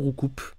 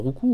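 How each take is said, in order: First: The name ends with an added consonant sound. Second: The name ends in a vowel, no S. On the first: "Toujours prononcer le S aussi" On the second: "Le S de Roucoups ne se prononce pas normalement"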